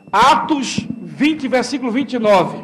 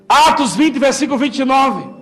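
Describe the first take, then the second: First: Slow, deliberate citation. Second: Said in the usual way. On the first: Shown as a demonstration.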